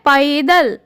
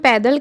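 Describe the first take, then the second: First: The first vowel glides from a toward i. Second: The first vowel is one steady sound. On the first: This is the pure, correct pronunciation. The speaker calls it right. "वह वास्तव में है पैदल" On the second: This is how people commonly say it. The speaker calls it wrong. "जिसे हम पैदल कहते हैं"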